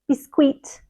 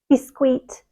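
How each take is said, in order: First: The second syllable sounds like keet. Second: The same.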